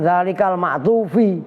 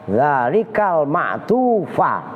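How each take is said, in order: First: The last word ends with an 'i' vowel. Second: The last word ends with an 'a' vowel. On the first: The word is read as a possessive. The speaker calls it wrong. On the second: The word is the object of the verb. The speaker calls it right. "tuh cara bacanya"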